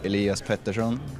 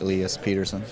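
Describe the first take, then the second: First: The name is said with a Swedish accent. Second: The name is said with a Canadian accent. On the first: This is the original pronunciation of the name. "Swedish is" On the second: This is how the name's owner prefers it said. "I wanted in can- Canadian accent like"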